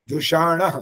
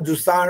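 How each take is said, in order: First: The middle sound is an 'sh'-like sibilant. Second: The middle sound is a plain 's'. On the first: The speaker calls it right. "स की जगह स आ गया और ण आ गया" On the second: The speaker calls it wrong. "आपने बोला जुसाण है, ये वाला ज्यादा गलत था"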